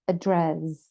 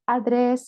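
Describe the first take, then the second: First: The first vowel is a weak schwa sound. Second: The first vowel is a full 'a' sound. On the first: The speaker calls it right. "it's the schwa sound" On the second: The speaker calls it wrong. "it's not address, it's not a"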